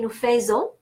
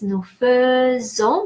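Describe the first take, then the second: First: The first syllable of faisons sounds like 'feh'. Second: The first syllable of faisons sounds like 'fuh'. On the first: The speaker calls it wrong. "a lot of people are saying Nufezo" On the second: The speaker calls it right. "but spelled A I ... the pronunciation feu"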